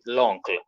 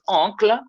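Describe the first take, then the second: First: "l'oncle" slowly, as "lonkl"; French elision. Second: "oncle" high, starting on nasal O; French pronunciation without article. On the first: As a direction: glue the L to the nasal O of "l'oncle". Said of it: "we say". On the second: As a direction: say bare "oncle" in French, pitched up. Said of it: "if it is". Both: Shown as a demonstration.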